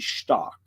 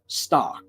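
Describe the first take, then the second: First: It is said in Bavarian with an sh sound. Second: It is said in standard High German.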